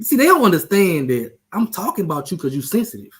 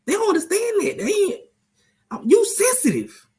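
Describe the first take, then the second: First: Said in the usual way. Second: Much higher, teasing falsetto; mocking squeaky voice. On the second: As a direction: squeak it out to needle your friend. Repeats the tease in a squeaky voice.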